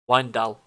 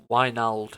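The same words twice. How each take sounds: First: Wijndal said with the D before the L, "WINE-dal"; corrected name. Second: Wijnald said with the L before the D, "WHY-nald"; mistaken name. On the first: Gamer corrects himself on a player's name, corrected Wijndal. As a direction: say Wijndal ending firmly in "-dal". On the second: Gamer misnames his left back, mistaken pronunciation Wijnald. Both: Real, not acted. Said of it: "I keep calling him Wijnald".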